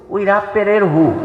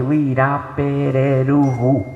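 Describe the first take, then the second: First: Said in the usual way. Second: "Irapereruhu" said slowly, each syllable laid out; slow, careful phonetic reading of "Irapereruhu"; spelled out phonetically. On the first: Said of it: "Se eu mostro isso aqui". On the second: Shown as a demonstration. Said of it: "Então eu vou foneticamente".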